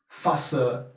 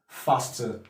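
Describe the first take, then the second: First: It is said in a Cockney accent. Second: It is said in a standard British accent. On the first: "So what a Cockney person will say is" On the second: "The normal British English is faster"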